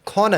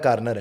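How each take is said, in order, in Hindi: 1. r की आवाज़ गिराई जाती है। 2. r की आवाज़ बोली जाती है।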